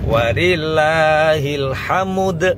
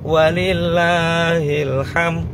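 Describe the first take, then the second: First: The last word ends with 'ud' sounds. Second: The last word ends with 'm', no final 'd'. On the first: The speaker calls it right. "nek wakof nakol dadi" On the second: The speaker calls it wrong. "nek enggak dikasih dal"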